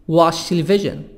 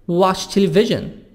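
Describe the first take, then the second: No difference in how they are said.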